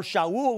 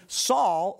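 First: Shaul said shah-OOL, with an sh start and two vowels; Hebrew pronunciation. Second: Said in the usual way. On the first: Shown as a demonstration. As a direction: Shaul in Hebrew: sh then ah-ool, not English Saul. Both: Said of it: "we would pronounce it in Hebrew".

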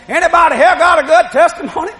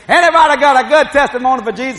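First: Higher, louder preacher calling out; rally the congregation like an old preacher; preacher's call. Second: Louder preacher calling to the pews; preacher's call. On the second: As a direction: draw out testimonies from the crowd. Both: Retold or imitated. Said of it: "That's what the preacher said".

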